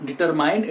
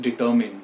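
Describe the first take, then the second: First: "determine" ending like MINE; wrong pronunciation. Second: "determine" low, ending in MIN; correct pronunciation. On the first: Teacher ruling it out, determine said dee-ter-MINE. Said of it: "So it is not". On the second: Teacher concluding for learners, determine as dee-TUR-min. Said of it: "it is determine". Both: Shown as a demonstration.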